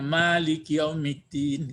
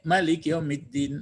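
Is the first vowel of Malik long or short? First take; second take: long; short. First: The first vowel of Malik is drawn out long. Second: The first vowel of Malik is kept short. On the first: "mereka memanjangkan ini. Jadi membacanya" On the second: "ada nanti yang bacanya pendek"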